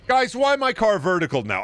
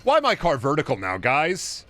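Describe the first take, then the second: First: Exasperated whine. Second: Said in the usual way. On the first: Real, not acted. Louder repeat of complaint.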